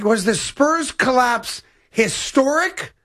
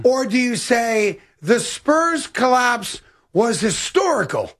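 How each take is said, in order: First: Very slow, spaced words, "historic" rising into a question; deliberate test sentence. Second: Very slow, spaced words, "historical" falling at the end; deliberate alternative. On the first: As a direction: lay out each word slowly and lift the end of "historic". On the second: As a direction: lay out each word slowly, then drop on "historical". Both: Shown as a demonstration. Weighing word in test sentence.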